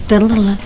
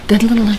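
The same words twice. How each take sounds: The two takes are said the same way.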